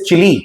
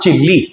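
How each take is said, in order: First: The L sound is short, single. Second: The L sound is held long, doubled. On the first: The speaker calls it right. "It is चिली" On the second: The speaker calls it wrong. "It's not चिल्ली"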